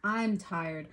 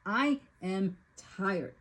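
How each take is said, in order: First: Said in the usual way. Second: I am tired drawn out, leaning on I; weary repeat, stressing I; slow, weighted emphasis. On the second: Shown as a demonstration. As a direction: say I am tired slowly, each word heavy.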